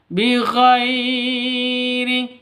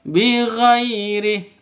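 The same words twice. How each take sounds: First: The 'ghai' sound is jerked or over-lengthened. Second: The 'ghai' sound is soft and smooth. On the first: The speaker calls it wrong. "seperti itu, salah" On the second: The speaker calls it right. "Yang betul"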